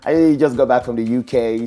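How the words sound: It is said in a put-on foreign accent.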